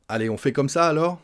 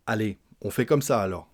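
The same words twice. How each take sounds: First: Rising question on "ça alors"; question tune. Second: "comme ça alors" falling, as a statement; statement tune. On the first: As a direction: ask it, lifting "ça alors" at the end. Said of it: "Point d'interrogation". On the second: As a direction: say it flat and settled, falling at the end. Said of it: "une affirmation, sans le point d'interrogation". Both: Shown as a demonstration.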